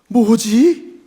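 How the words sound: It sounds amazed and admiring. The speaker is impressed by something. "감탄의 뭐지도 있습니다"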